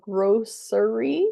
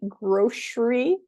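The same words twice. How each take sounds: First: The word is said with three syllables. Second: The word is said with two syllables. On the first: "grocery with three syllables" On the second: "I tend to say grocery"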